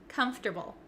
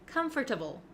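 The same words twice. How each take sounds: First: The middle syllables are reduced and run together. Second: Every syllable is pronounced fully, like com-for-table. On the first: The speaker calls it right. "this word is pronounced comfortable" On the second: The speaker calls it wrong. "a lot of my students like to say comfortable, comfortable. And that sounds a little bit clunky"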